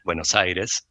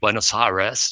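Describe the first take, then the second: First: It is said with an Argentine Spanish accent. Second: It is said with an English-speaking accent. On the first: This is how a coached actor would say it. The speaker calls it right. "she could have said Buenos Aires" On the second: This is how the film star said it. The speaker calls it wrong. "instead of saying Buenos Aires"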